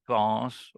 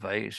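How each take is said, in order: First: It is said with a British pronunciation. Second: It is said with an American pronunciation.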